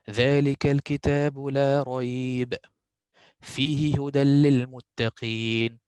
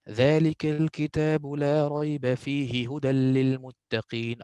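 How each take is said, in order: First: There is a pause after la rayb. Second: It is said through without any pause.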